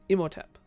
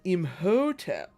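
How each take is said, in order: First: It is said quickly as one word, light middle. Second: The middle syllable 'ho' is heavily stressed. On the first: The speaker calls it right. "One word. One real quick noise" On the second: The speaker calls it wrong. "He put that he put that ho real heavy in there"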